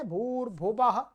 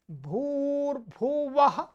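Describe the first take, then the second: First: भूर्भुवः with 'b' in place of 'v', quick; mispronounced B sound. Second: भूर्भुवः slowly, with an open 'w' in the last part; correct V sound. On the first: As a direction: say भूर्भुवः as bhoor-bhu-bah, lips closing on the last syllable. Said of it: "ब कर देते हैं". (भूर्भुवः में व की जगह ब) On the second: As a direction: say भूर्भुवः as bhoor-bhu-va-ha, lips not touching. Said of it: "ब नहीं है". (भूर्भुवः में ब नहीं, साफ़ व) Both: Shown as a demonstration.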